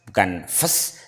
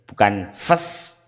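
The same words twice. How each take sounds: The two takes are said the same way.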